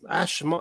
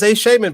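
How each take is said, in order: First: The 'sh' sound ends the first syllable. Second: The 'sh' sound starts the second syllable. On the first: The speaker calls it right. "it's pronounced Ash Amon" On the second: The speaker calls it wrong. "this says a shaman"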